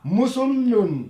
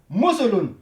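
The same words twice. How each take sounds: First: The L sound is held long and doubled. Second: The L sound is short and single. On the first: The speaker calls it wrong. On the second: The speaker calls it right.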